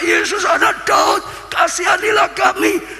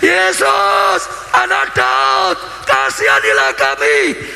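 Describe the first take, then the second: First: It is called out at ordinary shouting loudness. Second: It is shouted even louder than before.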